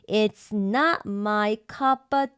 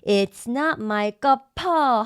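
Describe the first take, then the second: First: The p links smoothly into of without breath. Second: The p is aspirated with a breath break. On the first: The speaker calls it right. "연결되죠" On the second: The speaker calls it wrong. "호흡이 끊기죠"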